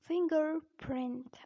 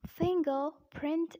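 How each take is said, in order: First: Slow American "fingerprint", both Rs sounded; American accent. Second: British pronunciation of fingerprint, first R dropped; British accent. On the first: Teacher showing learners the American fingerprint, American accent. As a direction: draw out an American R in 'fing-gerr-print'. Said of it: "But in American accent, we say it". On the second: Teacher showing learners the British fingerprint, British accent. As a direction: say "fingerprint" the British way, slowly, 'fing-guh-print'. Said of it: "pronounced as fingerprint in British accent". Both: Shown as a demonstration.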